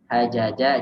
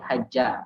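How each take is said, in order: First: The two j sounds are separated by a vowel. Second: The two j sounds merge into one doubled j. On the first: This is the underlying original form. "asalnya itu hajaja" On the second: This is the contracted form actually used. "jadi haja karena double, ini jimnya di di press jadi double"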